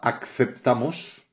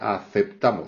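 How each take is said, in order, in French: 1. Il y a un son k avant le s. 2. Il n'y a pas de son k avant le s. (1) "on ne dit pas acceptamos, ce serait un francicisme" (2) "c'est aceptamos, il n'y a pas de C"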